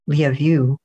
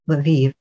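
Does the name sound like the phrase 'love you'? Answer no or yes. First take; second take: yes; no. First: The name sounds like the phrase 'love you'. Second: The name does not sound like 'love you'. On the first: This is how the name is said locally. The speaker calls it right. "in Ukraine, which is where it is now, it's Lviv, which sounds like love you" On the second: This is how Americans say the name. The speaker calls it wrong. "supposedly the American pronunciation is Lviv, which is hilariously not what it should be"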